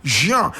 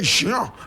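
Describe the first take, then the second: First: The name is pronounced the French way. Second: The name is pronounced the French way.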